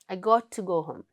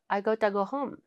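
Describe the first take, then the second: First: Got and to are said separately. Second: Got to blurs into one short word.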